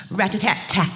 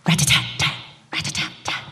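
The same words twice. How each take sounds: First: Spoken woodpecker drumming; drumming sound. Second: Soft whispered rat-a-tat; drumming fading into a whisper. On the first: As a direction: tap it out with the voice. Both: Shown as a demonstration. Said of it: "drumming against a coconut palm".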